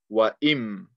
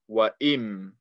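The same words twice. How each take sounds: First: The n sound merges into the m. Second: The n sound merges into the m.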